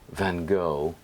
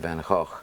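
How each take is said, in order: First: It is said the American way. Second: It is said the Dutch way.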